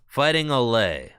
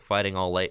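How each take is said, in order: First: Au lait is said like French 'olay'. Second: Au lait is said like English 'all late'. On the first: The speaker calls it right. "it's French" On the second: The speaker calls it wrong. "I am too American to pronounce that"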